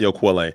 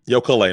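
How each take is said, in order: First: The middle consonant is a kw sound. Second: The middle consonant is a plain k sound. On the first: The speaker calls it wrong. "not Yokwale" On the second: The speaker calls it right.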